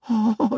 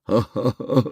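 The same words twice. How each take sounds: First: It is a woman's laugh with pursed lips. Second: It is an old man's laugh.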